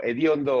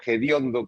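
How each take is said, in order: First: Said in the usual way. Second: "hediondo" with a J sound at the start; colloquial J pronunciation. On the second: Shown as a demonstration. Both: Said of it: "como se dice más coloquialmente".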